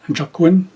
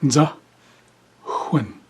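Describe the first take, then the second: First: The word begins with a j sound. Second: The word begins with a z sound. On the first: The speaker calls it wrong. "This is not a proper spelling or pronunciation" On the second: The speaker calls it right. "the proper pronunciation is Z"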